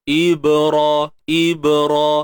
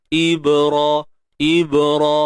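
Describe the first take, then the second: Both takes have the same delivery.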